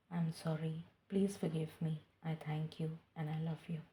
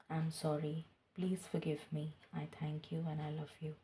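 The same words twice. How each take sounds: First: The third repetition of the mantra, whispered; whispered prayer. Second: Soft, slow spoken mantra; voiced prayer. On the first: Acted. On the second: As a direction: murmur the forgiveness prayer aloud, devoutly. Repeated forgiveness mantra, voiced.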